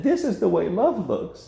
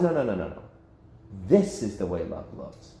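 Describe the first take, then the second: First: High, mocking version of the line; mocking the world. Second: Lower, firm and settled; firm correction. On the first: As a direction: sneer the world's idea of love, pitched up. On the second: Pretend. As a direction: set the record straight, calmly. God corrects the world.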